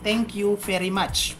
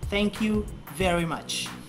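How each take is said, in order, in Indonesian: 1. 'Very' diawali dengan bunyi f yang lembut. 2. 'Very' diawali dengan bunyi v yang lebih berat. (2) "Yang benar V... Jadi V-nya lebih berat"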